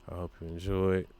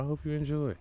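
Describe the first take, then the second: First: Said in the usual way. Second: High sing-song enjoy. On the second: Shown as a demonstration. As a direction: lift enjoy into a playful high tune. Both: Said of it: "If it's your fourth time listening".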